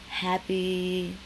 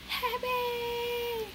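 First: Said in the usual way. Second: High, crying wail of the word; hammed-up tearful squeal; mock happy wail. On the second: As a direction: cry it out like overjoyed tears. Repeats happy in a wailing cry.

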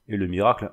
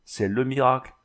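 First: "miracle" stressed, tune rising; "miracle" as a mocking rising echo. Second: "miracle" pressed down, falling; "miracle" stressed and final. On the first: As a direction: lift "miracle" up at the end. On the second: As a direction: lean on "miracle" with a falling close. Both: A narrator's reading. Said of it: "grommela-t-il".

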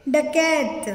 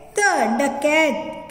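First: Said in the usual way. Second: Slow, sounded-out डकैत; slow blending. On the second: Shown as a demonstration. Teacher slowly joins letters into डकैत. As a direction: draw out डकैत as you join the letters. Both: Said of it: "कैसे पढ़ेंगे?".

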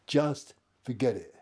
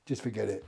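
First: "Just forget it" slowed, with firm weight on "Just"; emphatic repetition. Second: Said in the usual way. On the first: Retold or imitated. Teller repeats himself to the gunman, slow and emphatic. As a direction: spell out "Just ... forget it", slowly and firmly.

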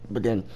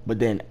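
The two takes are said the same way.

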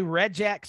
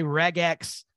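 First: "regex" with a soft G, like "rejex"; soft G pronunciation. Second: "regex" with a hard G, as in "leg"; hard G pronunciation. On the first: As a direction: say "regex" with a J sound. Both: Shown as a demonstration. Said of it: "some people say regex".

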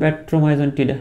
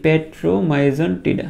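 First: Said in the usual way. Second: Petromyzon tida drawn out very slowly; slow drill take of petromyzon tida; slow pronunciation. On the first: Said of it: "উচ্চারণ করে ফেলো". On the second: Shown as a demonstration. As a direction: model petromyzon tida syllable by syllable. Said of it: "আমার সাথে সাথে করে একবার দুইবার একটু উচ্চারণ করে ফেলো".

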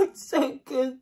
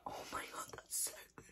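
First: Loud, high, slow and laughing; drawn-out, overwhelmed delight; excited rave. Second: Barely audible, unvoiced whisper; hushed, voiceless rave; awed whisper. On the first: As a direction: exclaim it through a laugh. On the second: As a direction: whisper it, overwhelmed by the taste. Overwhelmed by the taste. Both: Real, not acted.

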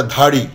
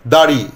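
First: ধাড়ি with a breathy dental dh; mispronounced aspiration. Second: Said in the usual way. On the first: Shown as a demonstration. Teacher showing dari turning aspirated, breathy ধাড়ি. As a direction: start ধাড়ি with aspirated dh in place of d. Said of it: "অল্প প্রাণগুলো আবার". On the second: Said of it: "এটা ধাড়ি".

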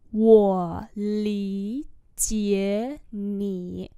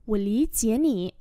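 First: Very slow, long held syllables; slow model reading. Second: Said in the usual way. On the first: Shown as a demonstration. Teacher repeating a phrase for learners, very slowly. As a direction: stretch each syllable out.

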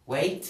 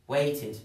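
First: Said in the usual way. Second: "Waited" as wait-id; "Waited" falling onto a clear "id"; added -ed syllable. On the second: Shown as a demonstration. Teacher contrasting verb and past, "Waited" said wait-id. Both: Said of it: "esto se pronuncia waited".

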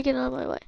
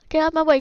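First: Said in the usual way. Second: Firm call to clear the path; urgent order. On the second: Real, not acted. Player to crowd blocking escape, urgent order. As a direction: push them aside with the voice.

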